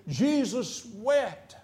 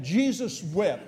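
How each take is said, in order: First: Slow solemn verse. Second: Slow short recital. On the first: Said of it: "but in this situation". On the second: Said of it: "I just want a scripture". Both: Shown as a demonstration.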